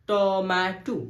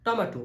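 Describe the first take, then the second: First: টম্যাটো split ট, ম্যা, টো; three separate beats on টম্যাটো; syllable by syllable. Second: Said in the usual way. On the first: Shown as a demonstration. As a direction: stretch and space out টম্যাটো. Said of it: "ভাগ ভাগ করে উচ্চারণ". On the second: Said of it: "আমরা কি বলি?".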